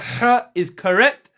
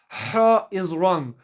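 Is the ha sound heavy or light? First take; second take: light; heavy. First: The ha is light, from mid-throat. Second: The ha is heavy, with a full mouth. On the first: The speaker calls it right. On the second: The speaker calls it wrong.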